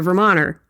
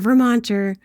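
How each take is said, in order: First: The T in the middle is swallowed. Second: The T in the middle is clearly pronounced. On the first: The speaker calls it right. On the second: The speaker calls it wrong.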